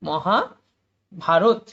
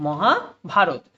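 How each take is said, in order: First: Mahabharata stretched out very slowly, each syllable held apart; slow syllable split. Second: Said in the usual way. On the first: Shown as a demonstration. Teacher sounding out Mahabharata for students, drawn out. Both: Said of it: "এবং রথটা একসাথে হবে".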